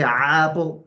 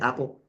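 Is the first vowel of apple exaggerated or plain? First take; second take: exaggerated; plain. First: The first vowel is drawn out and exaggerated. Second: The first vowel is short and plain. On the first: The speaker calls it wrong. "You wouldn't say" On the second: The speaker calls it right. "you just say"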